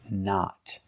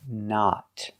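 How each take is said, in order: No difference in how they are said.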